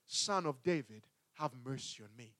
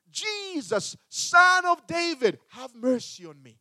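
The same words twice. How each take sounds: First: Low, soft, pleading murmur; quiet plea. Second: High, loud desperate plea; crying out for mercy. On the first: Blind man repeating his plea, low and hushed. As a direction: plead it softly under your breath. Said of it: "He begins to cry". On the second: Blind beggar calling to Jesus, high pleading cry. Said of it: "he began to cry". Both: Retold or imitated.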